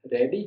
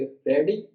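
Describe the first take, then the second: First: "ready" softened, pitch going down; falling intonation. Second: "ready" swept upward with more stress; questioning lift on "ready"; rising intonation. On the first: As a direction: let "ready" drop gently. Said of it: "हमारा थोड़ा नरम हो गया". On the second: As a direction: let "ready" climb at the end. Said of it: "और ज़्यादा।". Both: Shown as a demonstration.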